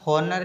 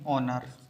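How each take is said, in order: First: The word starts with an audible h sound. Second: The word starts with a vowel, no h sound. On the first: The speaker calls it wrong. "इसको अपन हॉनर नहीं पढ़ेंगे" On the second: The speaker calls it right. "इसको अपन पढ़ेंगे ऑनर"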